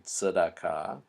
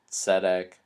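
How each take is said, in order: First: Tzedakah with a very brief first vowel, "tsuh-dah-KAH"; shortened first vowel. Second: Tzedek with a clear, full "eh" in the first syllable; full first vowel. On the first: Teacher showing the vowel shortened dramatically, reduced first syllable in tzedakah. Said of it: "is shortened dramatically". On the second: Teacher pointing out that first segolate vowel, full "eh" in tzedek. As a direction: give tzedek its whole first vowel, "TSEH-dek". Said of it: "notice how that first vowel". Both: Shown as a demonstration.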